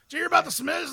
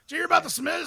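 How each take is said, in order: First: It is said in an exaggerated put-on character voice. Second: It is said in an exaggerated put-on character voice.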